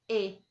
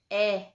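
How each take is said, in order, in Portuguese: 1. A vogal é pronunciada com a boca fechada. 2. A vogal é pronunciada com a boca aberta. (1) "Sempre vai ser E" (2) "nunca vai ser E aberto"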